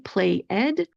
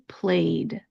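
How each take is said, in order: First: The ending is a separate extra syllable. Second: The ending is a soft voiced D sound. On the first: The speaker calls it wrong. "we're not going to say play ed" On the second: The speaker calls it right. "Instead, we're going to say played"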